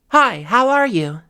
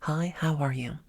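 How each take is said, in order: First: It is said loudly with more breath, projected. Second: It is said at a normal, quiet volume.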